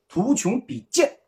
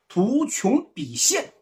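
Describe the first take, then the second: First: The last syllable is pronounced jian. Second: The last syllable is pronounced xian. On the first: The speaker calls it wrong. "读成图穷匕见" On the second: The speaker calls it right.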